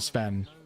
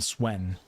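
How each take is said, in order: First: The name begins with a V sound. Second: The name begins with a W sound. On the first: This is how people from the area say it. "I called him Sven because that's how they pronounce it in Belgium" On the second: This is how other people say it. "You'll hear other people call him Swen"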